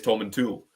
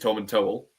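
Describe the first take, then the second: First: The last syllable sounds like 'tool'. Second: The last syllable sounds like 'towel'. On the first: This is how the other half of the village says it. "the other half says Tom and Tool" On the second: This is how half of the village says it. "half of the village says Tom and Towel"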